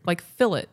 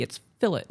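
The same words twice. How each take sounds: First: Fillet said as FIL-it with the T sounded; spelling pronunciation. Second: Fillet said as fi-LAY, no T; proper pronunciation. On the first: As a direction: fillet with a hard T at the end. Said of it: "I read it the way it's written". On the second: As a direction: fillet ending in a silent-T LAY. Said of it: "There's a T". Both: Shown as a demonstration.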